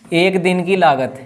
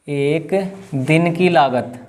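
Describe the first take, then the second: First: Said in the usual way. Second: एक दिन की लागत at half speed; slow dictation. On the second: Real, not acted. Teacher repeats cost line for students writing, slow dictation. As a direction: draw out एक दिन की लागत, pausing after एक.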